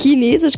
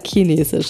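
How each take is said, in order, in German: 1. Das Wort wird standarddeutsch ausgesprochen. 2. Das Wort wird süddeutsch-regional ausgesprochen. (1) "Chinesisch würde man jetzt auch wieder hochdeutschen. Aber das geht bei mir nicht. Chinesisch kann ich nicht sagen" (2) "ich sage Chinesisch"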